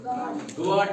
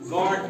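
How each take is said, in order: First: The u is sounded after the g. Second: The u is silent after the g. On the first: The speaker calls it wrong. "गार्ड नहीं पढ़ते हैं" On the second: The speaker calls it right. "बल्कि गार्ड पढ़ते हैं"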